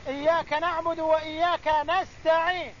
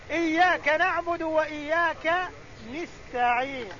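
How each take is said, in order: First: نستعين with an open a, nasta'īn; نستعين said nasta'īn with a on the first nun; nun with fatha. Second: نستعين with an i, nista'īn; نستعين said nista'īn with i on the first nun; nun with kasra, Tamim dialect. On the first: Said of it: "قرأ الجمهور بفتح النون". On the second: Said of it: "بكسر النون". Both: Shown as a demonstration.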